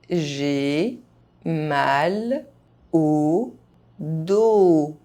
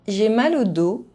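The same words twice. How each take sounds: First: The phrase is spoken very slowly. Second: The phrase is spoken fast, sounds reduced. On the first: Each syllable can be heard clearly. "very slowly" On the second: This is how native speakers say it. "fast, as a native speaker would do"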